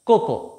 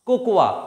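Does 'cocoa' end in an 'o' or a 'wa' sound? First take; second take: o; wa. First: The word ends with a plain 'o' sound. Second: The word ends with an added 'wa' sound. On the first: The speaker calls it right. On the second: The speaker calls it wrong. "কোকোয়া না"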